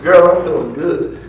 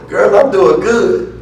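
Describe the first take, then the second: First: She sounds only half fine, a bit flat. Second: She sounds genuinely happy and well.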